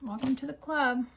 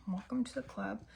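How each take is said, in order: First: Said in the usual way. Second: Same words said again much softer; muttered repeat. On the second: Shown as a demonstration. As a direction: say it again under your breath.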